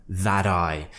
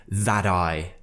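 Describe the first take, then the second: No difference in how they are said.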